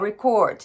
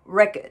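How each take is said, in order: First: The stress is on the second syllable. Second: The stress is on the first syllable. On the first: It is used as a verb meaning to record. "後ろにストレスが来る" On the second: It is used as a noun or adjective. "頭にストレス"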